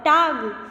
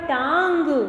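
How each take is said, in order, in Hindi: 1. स्वर अनुनासिक ध्वनि के बिना बोला गया है। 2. स्वर अनुनासिक ध्वनि के साथ बोला गया है।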